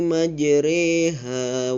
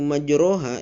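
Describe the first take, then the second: First: The vowel after r leans toward e. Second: The vowel after r is a full o. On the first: The speaker calls it right. "huruf ro ini kita kita baca menjadi re" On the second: The speaker calls it wrong. "mengucapkannya itu majroha, itu salah"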